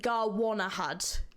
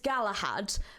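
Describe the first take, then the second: First: The name is said letter by letter, longer. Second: The name is said as the familiar Galahad. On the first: This follows the written spelling literally. "if I said it the way that that's written" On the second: This is the likely intended pronunciation. "I'm going to presume the pronunciation is"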